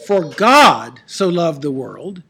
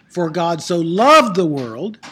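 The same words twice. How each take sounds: First: GOD loud and drawn out, the rest dropping away; stress on GOD. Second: LOVED stretched and punched, slow line; stress on LOVED. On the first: Teacher asking class where the verse's emphasis falls, stress on GOD. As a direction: lean hard on the word God, slowly. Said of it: "What's the emphasis of that verse?". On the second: Teacher offering a second reading of the verse, stress on LOVED. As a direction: lean hard on the word loved. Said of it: "Or is it". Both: Shown as a demonstration.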